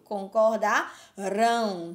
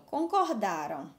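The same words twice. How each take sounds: First: CONCORDARÃO slow and loud, with a big final RÃO; drawn-out "concordarão", hitting the last syllable hard; stress on last syllable. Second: CONCORDARAM stressed on DA, light final -ram; "concordaram" leaning on the DA; stress on penultimate. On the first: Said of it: "Se fosse no futuro". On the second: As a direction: say "concordaram" as past, ending unstressed. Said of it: "tá vendo que tá no passado". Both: Shown as a demonstration.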